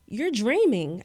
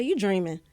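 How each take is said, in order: First: "dreaming" said as "dreamin'" with the g dropped. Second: "dreaming" with the final g said fully; full g. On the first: Speaker shows her old habit to the host: "dreaming" with the g dropped. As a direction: clip the ending of "dreaming". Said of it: "So instead of saying". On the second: Speaker shows the host her corrected speech: "dreaming" with a clear -ing. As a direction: land the -ing of "dreaming" cleanly. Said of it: "I'll say". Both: Shown as a demonstration.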